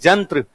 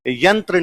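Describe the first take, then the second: First: It starts with 'j' and ends in 'tra'. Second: It starts with 'y' and ends in 'tra'. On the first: "तो होना चाहिए जंत्र" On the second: "ये यंत्र नहीं बोला जाता"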